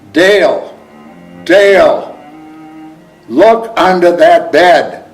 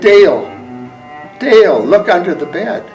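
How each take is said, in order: First: The voice is loud and forceful. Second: The voice is quiet and gentle.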